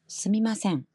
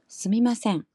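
No difference in how they are said.

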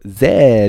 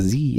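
First: The letter is said the British way, zed. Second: The letter is said the American way, zee.

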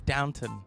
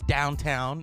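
First: The second syllable is a short, reduced 'tun'. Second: The second syllable sounds like the word town. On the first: The speaker calls it right. "No, it's Downton" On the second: The speaker calls it wrong. "My friend says it's downtown"

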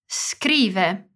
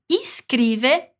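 First: No vowel comes before the s. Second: An i vowel is added before the s. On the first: The speaker calls it right. "que não tem uma vogal antes" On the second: The speaker calls it wrong. "não dizemos nem iscrive"

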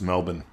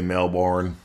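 First: The R sound is left out. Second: The R sound is clearly pronounced. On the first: The speaker calls it right. "You notice we don't say the R" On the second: The speaker calls it wrong. "We don't say Melbourne"

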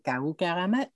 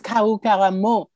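First: The name ends with a 'met' sound. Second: The name ends with a 'mo' sound. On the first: The speaker calls it wrong. "not met" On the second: The speaker calls it right. "so I say mo"

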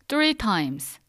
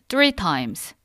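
The two takes are said the same way.

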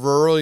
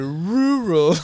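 First: The U vowel is said lightly and normally. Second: The U vowel is hit hard and heavily. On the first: This is the usual way to say it. The speaker calls it right. "instead of rural" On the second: This is the way the reader has been saying it. The speaker calls it wrong. "You're just like hitting hard, the U. Like hard like you're Hungarian"

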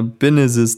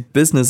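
First: The word is pronounced with swapped sounds. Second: The word is pronounced in the usual way. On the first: "dass sie da Binnesis draus macht" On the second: "wie sie Business ausspricht"

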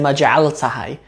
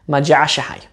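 First: The middle consonants are pronounced as l plus t. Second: The middle consonant is pronounced as sh. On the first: The speaker calls it wrong. "You don't say maja'altahai" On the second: The speaker calls it right. "you say maja'ashahai"

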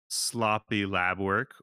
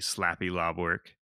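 First: The first two vowels are 'o' then 'a'. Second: The first two vowels are 'a' then 'o'. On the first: The speaker calls it wrong. "The next one we have is" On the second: The speaker calls it right. "the correct pronunciation would be"

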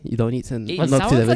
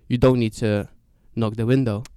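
First: It is said in a flirty put-on voice. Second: It is said in a plain storytelling voice.

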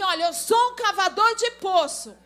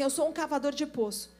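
First: It is said confidently, with conviction. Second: It is said timidly, without conviction.

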